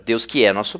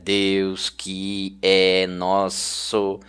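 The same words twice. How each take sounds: First: The words flow together; que é sounds like one word. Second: Each word is said separately, one at a time. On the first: The speaker calls it right. "Você lê normalmente" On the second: The speaker calls it wrong. "ninguém lê dessa maneira"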